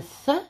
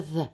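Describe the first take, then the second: First: TH as a breath without voice; unvoiced TH. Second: TH buzzed with the voice on; voiced TH. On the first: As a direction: puff TH out, as in mouth. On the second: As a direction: hum TH, as in weather. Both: Shown as a demonstration. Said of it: "Feather is like weather".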